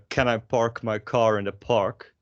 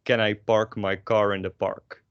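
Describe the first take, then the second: First: "Can I park my car in the park?" with puffs of air on p and k; English-style breathy bursts on "park" and "car"; English aspiration. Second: Dutch accent, no aspiration on p and k; unaspirated Dutch-accented English. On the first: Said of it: "in English". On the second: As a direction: say it Dutch, with airless "park" and "car". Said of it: "get rid of all your aspiration". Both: Shown as a demonstration.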